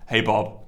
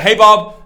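First: It sounds low and depressed. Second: It sounds upbeat and excited.

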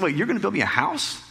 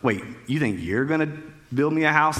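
First: The question sounds warm and pleasantly surprised. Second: The question sounds mocking and sarcastic. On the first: The speaker feels honored by the offer. The speaker calls it right. "He's honored" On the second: The speaker doubts the listener could do it. The speaker calls it wrong. "I read everything through the lens of sarcasm"

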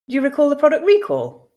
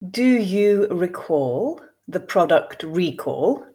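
First: The sentence is read at a natural pace. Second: The sentence is read slowly. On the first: "then I will read two more times at a more natural pace" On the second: "I will read once slowly for you to grasp the meaning"

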